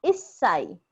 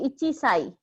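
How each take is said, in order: First: "issai" with chi dropped and a held double s; correct contracted pronunciation. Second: "ichi sai" with the full chi syllable; uncontracted pronunciation. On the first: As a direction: hold the s in "issai". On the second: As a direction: say "ichi sai" in two separate words, chi intact. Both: Shown as a demonstration. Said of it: "the correct pronunciation is issai".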